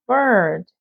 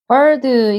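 First: The final d is swallowed and said weakly. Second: The final d is released clearly and strongly. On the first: The speaker calls it right. "마지막 d 발음은 삼키듯이 약하게 읽어주셔야 되죠" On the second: The speaker calls it wrong. "이게 아니라"

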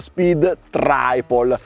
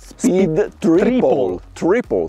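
First: The i in Triple sounds like 'eye'. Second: The i in Triple sounds like 'ee'. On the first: The speaker calls it wrong. "Tantissimi sbagliano e dicono" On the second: The speaker calls it right. "la I si pronuncia I"

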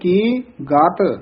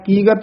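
First: A short pause comes before the second syllable. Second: The syllables run together without a pause. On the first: The speaker calls it right. "ਇੱਥੇ ਥੋੜਾ ਜਿਹਾ ਠਹਿਰਾ ਦੇ ਕੇ ਫਿਰ ਬੋਲਣਾ ਗਾਤ" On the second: The speaker calls it wrong. "ਕੀਗਤ ਨਹੀਂ ਕਹਿ ਦੇਣਾ"

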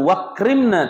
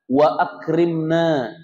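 First: The glottal stop is dropped, blending the words. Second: A glottal stop is pronounced before the second word. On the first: The speaker calls it wrong. "Bukan wakrimna" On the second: The speaker calls it right. "tapi apa? Wa akrimna"

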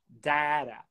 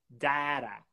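The two takes are said the same way.

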